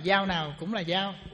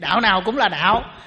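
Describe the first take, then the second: First: The repeated word has a level tone and soft initial. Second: The repeated word has a heavy low tone and hard initial. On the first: The text was read without its tone marks. The speaker calls it wrong. "tiếng Việt mà đọc thành tiếng Anh đó" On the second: Every religious path is a path. The speaker calls it right. "thì nếu mà mình viết đủ rồi"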